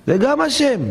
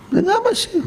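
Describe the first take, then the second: First: High mocking voice of acceptance; voiced much higher, hammed-up piety; mock pious acceptance. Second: Very high, strained mock voice; hammed-up, much higher pious whine; exaggerated mock piety. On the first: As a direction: parody someone shrugging it off as God's will. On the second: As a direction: push the parody further, squeaking it out. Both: Voicing a resigned believer.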